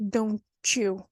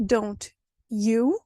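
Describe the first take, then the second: First: DON'T YOU run together as "donchoo"; linked "don't you" with a ch in the middle; assimilated. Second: DON'T and YOU said apart with a clear t; careful, word-by-word "don't ... you"; separate words. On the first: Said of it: "which becomes don't you". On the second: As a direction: fully enunciate "don't", pause, then "you". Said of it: "you would have the example of". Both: Shown as a demonstration.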